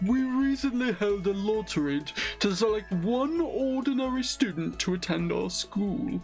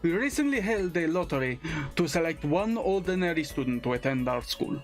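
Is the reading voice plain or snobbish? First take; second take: snobbish; plain. First: It is read in a snobbish, condescending put-on voice. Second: It is read in a plain, normal voice.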